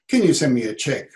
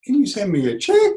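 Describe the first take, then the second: First: Can punched, the tune going down at the end; firm falling request; power statement. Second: Higher, check rising at the end like an unsure question; weak rising request. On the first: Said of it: "The, the actual going down, the power statement". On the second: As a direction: sound like you don't know what you're doing. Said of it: "If you go". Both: Shown as a demonstration.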